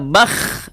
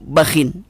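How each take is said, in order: First: The word ends on a bare kh sound. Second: The word ends with an added -in sound. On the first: "dibaca terkadang dengan disukunkan kha-nya" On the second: "dibaca terkadang dengan dikasrohkan serta tanwin"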